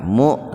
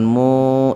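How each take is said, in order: First: The vowel is cut off with a glottal catch. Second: The vowel flows on without a glottal catch. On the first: The speaker calls it right. "Huruf hamzah yang sukun di tengah-tengah kata dihentakkan" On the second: The speaker calls it wrong. "jangan mu, jangan begitu"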